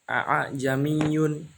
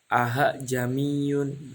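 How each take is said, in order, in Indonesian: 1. Hamzah kedua dilafalkan sepenuhnya. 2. Hamzah kedua dilunakkan menjadi h. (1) "Yang semula" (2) "karena dibaca tasil bunyinya menjadi aha jamiyun"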